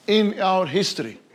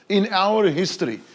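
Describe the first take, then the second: No difference in how they are said.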